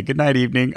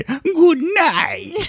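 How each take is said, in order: First: Said in the usual way. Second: "Good night" in high creepy kitten voice; cat voice. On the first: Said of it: "I'll say". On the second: Acted. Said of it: "That's a pretty good cat voice".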